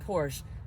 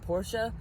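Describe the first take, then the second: First: It is said as one syllable, ending in 'sh'. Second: It is said as two syllables, like 'Portia'. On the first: This is the way the speaker always said it. "I've always said Porsche" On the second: This is the way learned from knowing more about cars. "I'm slowly saying Porsche, ... I think of Ellen DeGeneres' wife because her name is Portia"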